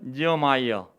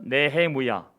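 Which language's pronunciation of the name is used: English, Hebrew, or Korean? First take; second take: English; Hebrew. First: The name is said the English way, nee-uh-my-uh. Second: The name is said the Hebrew way, neh-heh-mu-ya. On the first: "영어로는 니어마이어" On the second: "히브리어로는 네헤무야"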